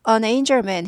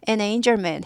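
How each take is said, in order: First: The first word sounds like 'on'. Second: The first word sounds like 'and'. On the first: "on도 되고" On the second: "and도 되고"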